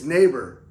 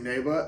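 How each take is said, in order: First: It is said in a plain native accent. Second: It is said in a heavy put-on foreign accent. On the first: This is how the word should sound. The speaker calls it right. "the director keeps like, it's it's neighbor" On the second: The actor cannot pronounce the word properly. The speaker calls it wrong. "he's saying it like he would say choppa"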